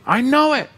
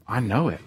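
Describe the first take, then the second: First: Much higher, louder burst of conviction; excited affirmation. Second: Said in the usual way. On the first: Acted. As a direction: shout it up with joy. Affirming faith again.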